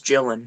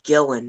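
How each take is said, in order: First: The name begins with a J sound. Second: The name begins with a hard G sound. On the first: The speaker calls it right. "So J sound" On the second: The speaker calls it wrong. "it's it's not Gillen"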